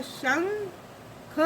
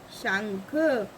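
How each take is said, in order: First: शंख split as shang, then kha; syllable by syllable. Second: शंख lower, in one piece; joined-up word. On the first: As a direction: leave a gap inside शंख. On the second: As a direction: run shang and kha together in शंख. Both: Shown as a demonstration. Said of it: "शा के ऊपर अंग की बनती है".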